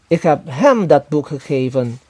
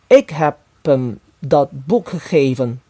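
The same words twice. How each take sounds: First: The word hem carries the main stress. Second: The word ik carries the main stress. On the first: It was given to him, not someone else. "kepada dia dan bukan kepada orang lain" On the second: I, and not someone else, gave it. "Saya dan bukan orang yang lainnya yang telah memberinya buku itu"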